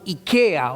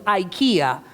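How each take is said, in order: First: It is said with a Spanish pronunciation. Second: It is said with an American English pronunciation.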